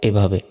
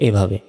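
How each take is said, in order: No difference in how they are said.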